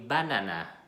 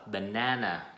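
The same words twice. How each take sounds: First: The stress is not on the second syllable. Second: The stress is on the second syllable. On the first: Listeners would not understand it. The speaker calls it wrong. "bạn nói sai á" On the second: Listeners understand it. The speaker calls it right. "bạn phải nhấn mạnh cái cái đợt thứ hai"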